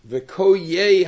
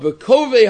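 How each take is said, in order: First: The middle consonant is a y sound. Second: The middle consonant is a v sound. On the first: This is the reading some commentators give. "the yud is pronounced with a tzeri, and it's pronounced v'koyei" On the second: This is the reading most places use. "I think most places lain it v'kovei"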